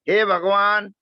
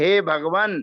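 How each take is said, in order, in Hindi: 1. bhagavan का अंतिम स्वर दीर्घ है। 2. bhagavan का अंतिम स्वर ह्रस्व है। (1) "हम लोग बहुत बड़ी गलती करते रहते हैं। हम बोलते हैं हे भगवान" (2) "उस समय उच्चारण करना चाहिए हे भगवान, क्योंकि तो आप संबुद्धि में बोल रहे हो"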